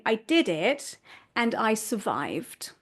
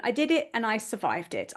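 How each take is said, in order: First: Slow, deliberate and proud; slow proud look back; slow reflective declaration. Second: Said in the usual way. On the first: Shown as a demonstration. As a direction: savour each word slowly. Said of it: "end up reflecting back and saying". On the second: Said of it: "there is resilience all on its own".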